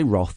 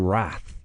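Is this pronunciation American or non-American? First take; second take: non-American; American. First: It is said in a non-American way. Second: It is said in an American way. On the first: The speaker calls it right. "in America, they don't say Roth" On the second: The speaker calls it wrong. "they say Wrath"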